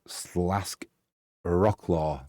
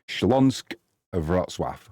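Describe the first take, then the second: First: The name is said with English sounds. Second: The name is said with Polish sounds. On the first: "Or if you're in England" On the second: "But the Polish pronunciation is Śląsk"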